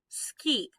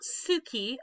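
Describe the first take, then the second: First: The u after the s is silent. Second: The u after the s is fully voiced. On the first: The speaker calls it right. "we've got a voiceless vowel there" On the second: The speaker calls it wrong. "This is not suki"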